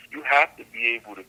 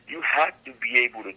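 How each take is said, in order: Both takes have the same delivery.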